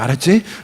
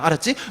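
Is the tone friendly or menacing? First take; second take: menacing; friendly. First: It is said in a threatening, scary tone. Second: It is said in a bright, kind tone. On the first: Eating it means the speaker will kill you. The speaker calls it wrong. "아주 무섭게 읽어요" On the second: Eating it will lead to your death as a consequence. The speaker calls it right. "엄청 밝은 음악 속에서"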